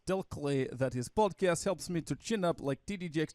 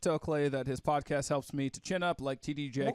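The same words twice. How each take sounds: First: It is read in a put-on Russian accent. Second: It is read in the reader's ordinary accent. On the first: The speaker calls it right. "read your stereotypical Russian accent" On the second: The speaker calls it wrong. "you're not using your Russian accent"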